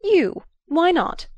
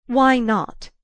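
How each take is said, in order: First: High, loud, sharp snap back; sharp retort. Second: Louder probing repeat, less high; searching. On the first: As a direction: jerk the question right back at him. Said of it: "she jerked back at him". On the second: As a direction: press him searchingly for an answer. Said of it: "she searchingly repeated". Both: Acted.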